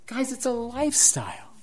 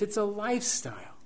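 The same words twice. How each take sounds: First: "lifestyle" lifted higher and pressed; emphatic restatement; higher emphatic repeat. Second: Soft aside. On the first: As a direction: repeat it higher to drive it home. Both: Shown as a demonstration.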